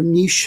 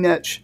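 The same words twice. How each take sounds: First: The word is said the British way. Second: The word is said the American way.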